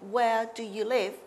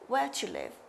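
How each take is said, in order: First: Each word of "do you" is said fully. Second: "Do you" is squeezed into one short syllable. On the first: The speaker calls it wrong. "we don't say" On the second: The speaker calls it right. "So this to you is an example of reduced forms"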